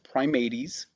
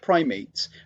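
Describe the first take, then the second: First: It is given a classical, non-English reading. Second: It sounds like the everyday English word. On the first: The speaker calls it right. "It's pronounced Primates" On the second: The speaker calls it wrong. "I know this looks like primates"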